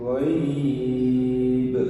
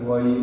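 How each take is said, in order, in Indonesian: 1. Vokalnya dibaca panjang. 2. Vokalnya dibaca pendek. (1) "Itu boleh panjang" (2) "bukan ghaib"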